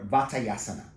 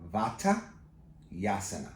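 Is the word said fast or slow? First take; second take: fast; slow. First: The word is said at normal, quick speed. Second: The word is said slowly, part by part.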